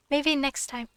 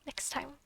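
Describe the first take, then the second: First: Said in the usual way. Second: Much softer "Next time"; quiet. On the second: Shown as a demonstration. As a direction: murmur it to yourself.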